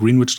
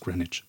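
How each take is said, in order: First: It sounds like 'green' plus 'witch'. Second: It sounds like 'grenitch', the British way. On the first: "Sie haben Green, sie haben Witch. Da macht man da einen Greenwich draus" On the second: "wenn sie es nach dem britischen Stadtteil aussprechen"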